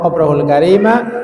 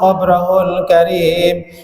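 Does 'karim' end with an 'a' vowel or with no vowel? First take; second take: a vowel; no vowel. First: The final m is followed by an 'a' vowel. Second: The final m has no vowel after it. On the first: "maka mimnya di fathah" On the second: "mimnya disukun"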